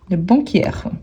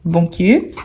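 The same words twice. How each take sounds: First: "banquière" with an open è before r; open È ending. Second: Said in the usual way. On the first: Shown as a demonstration. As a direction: open up the last vowel of "banquière". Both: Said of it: "vous voyez plus ouverte".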